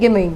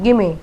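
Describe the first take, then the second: Both takes have the same delivery.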